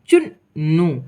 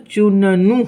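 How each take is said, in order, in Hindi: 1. दोनों n ध्वनियाँ बीच में बिना किसी स्वर के जुड़ जाती हैं। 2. दोनों n ध्वनियों के बीच एक छोटा स्वर आता है। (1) "और आधा अक्षर भी यहाँ समझाया गया है।" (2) "अगर इसमें हम पूरा न लगा देंगे तो चुननू हो जाएगा"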